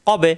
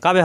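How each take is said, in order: First: কবে with a rounded 'o' after the q, not 'kabe'; correct Qur'anic vowel. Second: কাবে with an open 'aa' in the first syllable; wrong open vowel. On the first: Teacher modelling the spelling for learners, correct rounded vowel. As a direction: say কবে with o, never an open aa. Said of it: "কা হবে না কিন্তু". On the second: Teacher showing learners what to avoid, wrong open vowel. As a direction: say কাবে with aa instead of rounded o. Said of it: "কাবে হবে না". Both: Shown as a demonstration.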